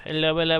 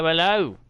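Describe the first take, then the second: First: Said in the usual way. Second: A quick mock British hello, ending in an "ow" sound; a hammed-up Cockney "hello" said as "'allo"; bad British accent. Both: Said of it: "Bad impression of the accent".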